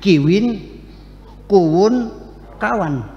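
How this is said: Each word has a w sound in the middle. This is how the village across the river says it. "itu bukan begitu, bilangnya kiwin kuwun kawan"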